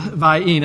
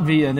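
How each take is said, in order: First: The word sounds different from the city's name. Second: The word sounds like the Austrian city's name. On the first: The speaker calls it right. "it is Vienna. It has nothing to do with the city in Austria" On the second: The speaker calls it wrong. "the correct pronunciation of said sausages is not Vienna"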